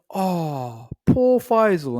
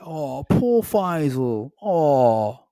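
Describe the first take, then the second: First: Much higher, louder sing-song mock sympathy; mocking pity. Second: Slow, high, wailing fake sob; milk it like a sad violin tune; mock crying. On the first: Girlfriend teasing Faisal on a walk, mocking pity. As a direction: coo it like fake pity for a sulking child. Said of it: "she went". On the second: Girlfriend mocking his self-pity, hammed-up fake crying. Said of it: "made, like, a violin".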